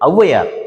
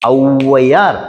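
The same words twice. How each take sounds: First: The first vowel is cut shorter. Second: The first vowel is held long. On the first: The speaker calls it right. "ஔவையார் அப்படி" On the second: The speaker calls it wrong. "அப்படி சொல்றது இல்ல"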